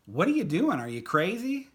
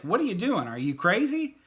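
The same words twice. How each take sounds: First: Incredulous, louder and higher; imagined look. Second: Incredulous outburst, much higher and louder; spoken aloud. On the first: Friend staring across the band room, louder incredulous disbelief. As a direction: voice the disbelief of a silent stare. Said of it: "he was giving me the look like". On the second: Friend finally saying it out loud, loud incredulous outburst. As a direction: blurt out the disbelief for real. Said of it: "And then he said it". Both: Retold or imitated.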